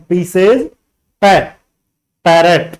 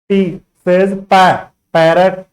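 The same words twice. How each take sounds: The two takes are said the same way.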